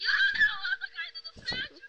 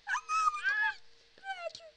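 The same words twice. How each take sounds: First: Put-on high squeaky girlish cry; little girl voice. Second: High squeaky girlish imitation; little girl voice. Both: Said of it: "Falou com voz de menininha agora".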